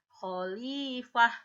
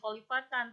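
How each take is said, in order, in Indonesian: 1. Kata ini berakhir dengan bunyi h pendek. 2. Kata ini berakhir dengan suku kata -tan. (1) "tetapi kalau berhenti menjadi khalifah" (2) "itu kalau diteruskan jadi khalifatan"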